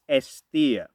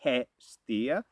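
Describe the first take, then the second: First: The word begins directly with a vowel. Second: The word begins with an H sound. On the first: The speaker calls it right. "it's a silent H, so it is Estia" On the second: The speaker calls it wrong. "It's not Hestia"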